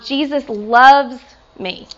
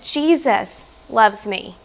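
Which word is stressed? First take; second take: loves; Jesus. First: The stress falls on the word loves. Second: The stress falls on the word Jesus. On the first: The relationship is one of amazing love. "the love that he has" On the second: It is the Creator himself who loves. "Sometimes I like to emphasize different words"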